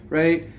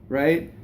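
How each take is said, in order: The two takes are said the same way.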